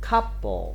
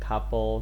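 First: The first syllable is higher and louder than the second. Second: The word is said flat with no syllable emphasized. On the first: "อีกพยางค์หนึ่งก็ทำให้เป็นเสียงเบาไปนะ" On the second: "ถ้าเกิดเราอ่านแบบไม่เน้นเราจะว่า"

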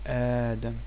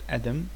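First: The first vowel is long. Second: The first vowel is short. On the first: The speaker calls it right. "This sound is like Hamza and Alif, so it's Hamza Mamduda" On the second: The speaker calls it wrong. "It's not Adam"

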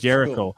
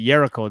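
First: The word begins with a j sound. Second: The word begins with a y sound. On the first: This is how the name is meant to be said. The speaker calls it right. "They didn't pronounce it Jericho" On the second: Someone who could not say the name said it this way. The speaker calls it wrong. "they couldn't pronounce Jericho. They pronounced it Jericho"

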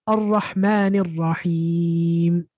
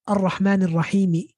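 First: The last word ends on a bare m sound. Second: The last word ends with an added vowel. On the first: The speaker calls it right. "We stop on his sukun" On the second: The speaker calls it wrong. "We don't say"

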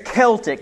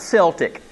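First: The word begins with a hard K sound. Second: The word begins with a soft S sound. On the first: The speaker calls it right. "it's Celtic" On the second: The speaker calls it wrong. "not Celtic"

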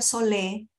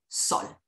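First: The name is said as two syllables, 'so-lé'. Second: The name is said as one syllable, 'sol'. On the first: The speaker calls it wrong. "no se pronuncia solé" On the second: The speaker calls it right. "La manera correcta de pronunciarlo es como el sol"

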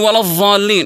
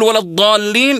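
First: The heavy consonant is a th-like sound. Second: The heavy consonant is a d-like sound. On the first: The speaker calls it wrong. "يقلب الضاد إلى ضاء" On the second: The speaker calls it right. "بدل ما يقول ولا الضالين"

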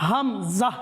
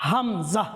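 No difference in how they are said.

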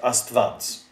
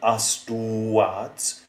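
First: A v consonant sound follows the t. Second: A u vowel sound follows the t. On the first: This is the actual pronunciation. "but we pronounce it astvads" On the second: This follows the spelling. "this is written astuads"

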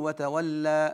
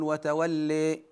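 First: The final vowel is a fully open a. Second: The final vowel is strongly raised toward i. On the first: "هذا هو الفتح" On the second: "أما الإمالة فزيادة التقريب"

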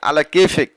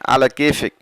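First: It is said in an angry tone. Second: It is said in a calm, normal tone. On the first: Do whatever you want, then, and face the results. "যদি রাগান্বিত হয়ে বলেন আলা কেফেক" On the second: Do it however you like. "আবার যদি নর্মালি বলেন আলা কেফেক"

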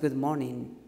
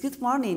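First: It is said with a low pitch. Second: It is said with a high pitch. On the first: The speaker calls it wrong. "it's not good morning. Or with this low tone" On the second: The speaker calls it right. "It's good morning"

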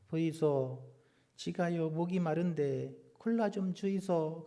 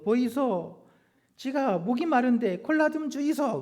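First: The request is said in a normal voice. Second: The request is said in a forceful voice.

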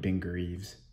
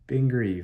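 First: The surname ends with a z sound. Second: The surname ends with a v sound. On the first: The speaker calls it wrong. "I've been calling him Ben Greaves" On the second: The speaker calls it right. "Like, good grief"

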